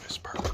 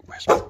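First: Hushed, softer repeat of the order; quiet cue to the dog; soft command. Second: Sharp, loud order to the dog; loud command before the hush. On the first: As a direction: say it quietly to model a whisper. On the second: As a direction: call it out firmly. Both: Real, not acted.

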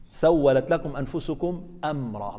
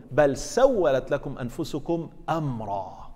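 First: سولت stressed, the phrase said slowly; slow down and lean on سولت; slow emphatic repeat. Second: بل سولت لكم أنفسكم أمرا drawn out slowly and louder; slow emphatic recitation. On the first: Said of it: "تركها منكرة". (تكرار بطيء مع تشديد على سولت) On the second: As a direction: weigh every word of the verse slowly. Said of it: "بل هذه نفت ما قبلها". (تلاوة بطيئة مؤكدة) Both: Shown as a demonstration.

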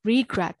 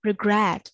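First: REE-gret, stress wrongly on the start of "regret"; mis-stressed "regret" as a counterexample, REE first; wrong first-syllable stress. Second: Re-GRET, "regret" weighted on the last syllable; corrected "regret", short RE and stressed GRET; second-syllable stress. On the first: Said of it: "အဲ့လိုမဟုတ်ဘူး". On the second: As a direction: lean hard on the GRET of "regret". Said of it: "ဒုတိယ syllable မှာ stress ထည့်ထားတယ်". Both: Shown as a demonstration.

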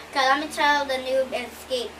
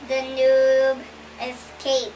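First: Said in the usual way. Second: "The noob escape" drawn out slowly; slow, deliberate "The noob escape"; slow announcement. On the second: Shown as a demonstration. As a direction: stretch out "The noob escape" like a title.

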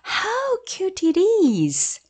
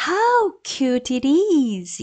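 First: Much higher, very slow cooing "How cute it is."; gushing exclamation. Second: Slow, higher gushing exclamation; exclaiming. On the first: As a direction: gush over something adorable. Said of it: "감탄하는 말이니까요". (아주 높게 감탄하며 귀엽다는 듯) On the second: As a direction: coo it like something adorable. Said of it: "이렇게 발음하십니다". (귀여워하며 감탄하듯) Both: Shown as a demonstration.

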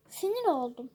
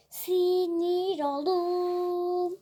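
First: Said in the usual way. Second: Very slow, stretched sinir oldum; drawn-out whine. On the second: Pretend. Gamer to viewers, hungerless and annoyed, drawn-out whine.

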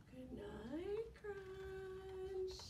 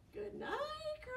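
First: Soft, hushed good night; calm, soothing. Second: High good night; sing-song good night. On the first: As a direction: lull him to sleep. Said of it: "in a calm, soothing voice". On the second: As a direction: call good night brightly. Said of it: "by saying what". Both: Shown as a demonstration.

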